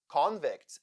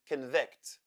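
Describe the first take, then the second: First: The stress is on the first syllable. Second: The stress is on the second syllable. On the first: "in the first case, the first syllable is stressed" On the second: "In the other case, the second syllable is"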